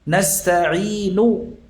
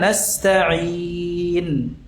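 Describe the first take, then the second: First: The word ends with a short vowel. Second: The word ends on a silent consonant. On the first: The reading continues without stopping. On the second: The reader stops on this word.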